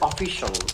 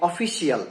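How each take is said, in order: First: The ending is said as one syllable. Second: The ending is said as two syllables. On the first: The speaker calls it right. "এটা হবে অফিসিয়াল" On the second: The speaker calls it wrong. "এটা কিন্তু অফিসিয়াল না"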